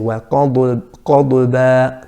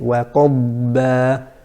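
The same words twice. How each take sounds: First: The dad ends with an echoing bounce. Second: The dad is held steady without bounce. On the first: The speaker calls it wrong. "to pronounce aqalqala with the dad, which is incorrect" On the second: The speaker calls it right. "We have to say"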